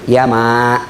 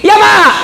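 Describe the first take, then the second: First: The reply is said gently and softly. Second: The reply is said loudly and harshly. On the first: The child is showing respect to the mother. The speaker calls it right. "ah itu etikanya" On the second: The child is being rude to the mother. The speaker calls it wrong. "Nah itu tidak beradab itu"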